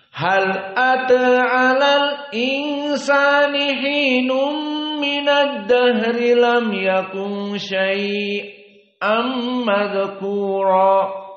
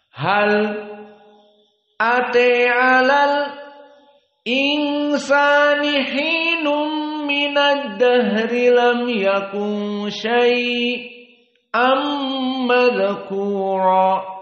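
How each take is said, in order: First: It is recited quickly and smoothly. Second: It is recited slowly, broken into pieces. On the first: "jika kita baca dengan cepat" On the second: "temponya agak lambat dikarenakan memang sengaja kita potong-potong"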